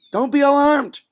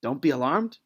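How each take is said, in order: First: Loud, high rallying cry of "don't be alarmed"; rousing pep talk. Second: Quiet, incredulous "Don't be alarmed?" with a questioning rise; doubtful soldier. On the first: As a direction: proclaim "don't be alarmed" like a priest firing up soldiers. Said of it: "He's telling them". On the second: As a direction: mutter "Don't be alarmed?" to yourself in disbelief. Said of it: "thinking to themselves". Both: Acted.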